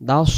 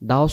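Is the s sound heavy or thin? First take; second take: heavy; heavy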